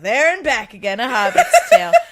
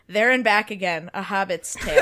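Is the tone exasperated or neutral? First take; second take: exasperated; neutral. First: It is said in an exasperated tone. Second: It is said in a neutral tone.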